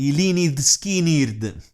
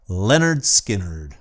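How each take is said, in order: First: The name is said in an Italian manner. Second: The name is said in an English manner.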